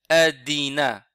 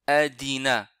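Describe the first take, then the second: No difference in how they are said.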